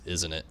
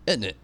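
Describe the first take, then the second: First: "Isn't it?" low and soft, Welsh lilt; Welsh tag question. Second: "Isn't it?" with a falling Welsh lilt, normal level; Welsh tag question. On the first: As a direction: mimic the Welsh "Isn't it?" quietly. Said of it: "he actually says". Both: Retold or imitated.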